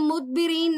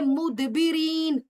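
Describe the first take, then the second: First: The d is closed quietly with no bounce. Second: The d is released with a small echoing bounce. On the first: The speaker calls it wrong. "इसको हम मुदबिरीन नहीं पढ़ेंगे" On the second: The speaker calls it right. "बल्कि मुदबिरीन इस तरह करके पढ़ेंगे"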